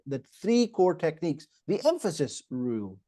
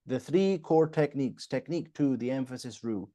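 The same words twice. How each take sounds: First: THREE and EMPHASIS punched, the rest left plain; added emphasis. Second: "three core techniques" read evenly with no word punched; monotone. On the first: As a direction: lean hard on "three" and "emphasis". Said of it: "just add some emphasis". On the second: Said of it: "if I was to speak monotone". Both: Shown as a demonstration.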